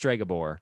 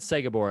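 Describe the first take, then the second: First: The name begins with an STR sound. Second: The name begins with a plain S sound. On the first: The speaker calls it right. "It's Stregobor" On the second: The speaker calls it wrong. "I've been saying it wrong this whole time"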